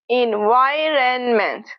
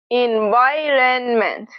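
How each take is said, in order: No difference in how they are said.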